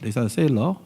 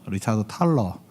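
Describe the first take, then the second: First: The surname begins with an S sound. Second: The surname begins with a T sound. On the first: The speaker calls it right. "영어 발음으로는 ... 세일러라고 읽는데" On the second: The speaker calls it wrong. "책에는 탈러라고 돼 있다"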